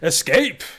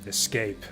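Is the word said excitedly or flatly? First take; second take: excitedly; flatly. First: It is said forcefully, with excited energy. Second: It is said flatly, with little energy. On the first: The speaker calls it right. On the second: The speaker calls it wrong.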